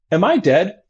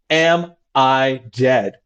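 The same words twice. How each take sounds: First: High, light question; patient's question. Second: Very slow, matter-of-fact; calm casual question. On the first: Therapist voicing a ketamine patient, high and light. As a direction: ask it lightly. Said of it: "in this tone of voice". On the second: Therapist imitating the patient, calmly asking if dead. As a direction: ask it like ordering onion rings. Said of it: "In that tone of voice". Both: Retold or imitated.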